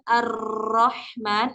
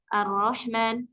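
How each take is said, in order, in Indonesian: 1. Huruf r digetarkan dengan tekanan yang berat. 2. Huruf r digetarkan sangat lemah atau terlalu ringan. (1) "bukan terlalu ditekan" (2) "enggak terlalu kita menyepelekan"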